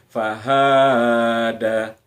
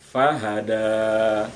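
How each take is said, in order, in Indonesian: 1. Vokal suku kata tengah dipanjangkan. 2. Vokal suku kata terakhir dipanjangkan. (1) "ada yang membaca hanya yang panjang" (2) "Semestinya fahada. Jadi bukan ha yang panjang tapi dal yang panjang"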